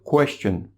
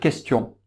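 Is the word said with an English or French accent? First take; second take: English; French. First: The word is said with an English accent. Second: The word is said with a French accent. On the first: "les Anglais... mais ils vont dire question" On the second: "En français, on va dire question"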